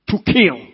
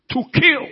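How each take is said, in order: First: Emphatic preaching. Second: "kill" thrown up much higher; climbing second "To kill"; higher emphatic repeat. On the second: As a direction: lift "kill" high on the repeat. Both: Shown as a demonstration. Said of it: "repeated for emphasis".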